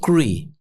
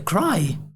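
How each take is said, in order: First: The word is pronounced as a learner misreads it. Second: The word is pronounced as a native speaker says it. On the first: The speaker calls it wrong. "o aluno achar que é cry" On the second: The speaker calls it right. "o nativo a pronunciar cry. É cry"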